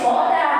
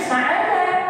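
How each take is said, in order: First: The first vowel is a rounded 'o' sound. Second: The first vowel is an open 'a' sound. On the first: This is how village people call the name. "khas lidahnya dipanggil soda" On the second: This is the name's original form. "Namanya aslinya saada"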